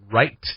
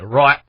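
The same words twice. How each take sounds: First: It ends with a clear tongue-tip t sound. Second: It ends cut off with a glottal stop. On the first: "instead of saying the t, right with our tip of our tongue at the back of the top of our teeth" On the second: "you're cutting it off almost with your uh, with like it's almost like a glottal stop"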